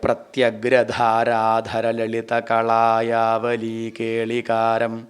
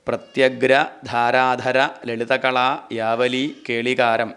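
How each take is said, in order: First: The words run together without breaks. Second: The words are split apart with breaks. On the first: The speaker calls it right. "ഒരുമിച്ച് തന്നെ വായിക്കണം" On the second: The speaker calls it wrong. "ഇങ്ങനെ വായിക്കാൻ പാടില്ല"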